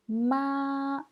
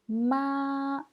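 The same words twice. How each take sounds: First: The pitch stays high and level. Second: The same.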